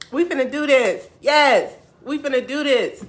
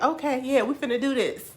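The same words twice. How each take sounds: First: High, loud hype cheer; all-in excited determination; fired-up resolve. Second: Higher, louder agreement; hyped, building determination; retold eager resolve. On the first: Retold or imitated. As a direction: shout it like a pep talk. Retold resolve at peak. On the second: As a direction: psych yourself up.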